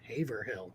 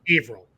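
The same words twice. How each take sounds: First: The name is read out as it is spelled. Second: The name is said in the local Massachusetts way. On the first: This is how outsiders read the town's name. The speaker calls it wrong. "that's not how we say it" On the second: This is how locals say the town's name. The speaker calls it right. "is how it's said in Massachusetts"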